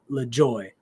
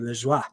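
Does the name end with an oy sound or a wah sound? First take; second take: oy; wah. First: The name ends with an oy sound. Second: The name ends with a wah sound. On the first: The speaker calls it wrong. "not le joy" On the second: The speaker calls it right. "which would be le joie"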